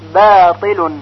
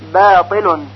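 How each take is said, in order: The two takes are said the same way.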